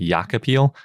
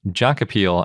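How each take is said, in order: First: The first sound is a South American-style J. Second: The first sound is an English-style J. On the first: "in South America, they probably pronounce it" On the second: "I think, is how you pronounce it"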